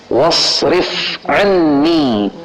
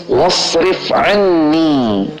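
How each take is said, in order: Both takes have the same delivery.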